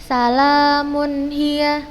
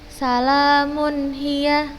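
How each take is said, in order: No difference in how they are said.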